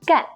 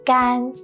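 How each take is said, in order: First: The tone falls sharply from high to low. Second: The tone is high, flat and long. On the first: It means to do. "it is the fourth falling tone" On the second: It means dry. "it's the first flat and long tone"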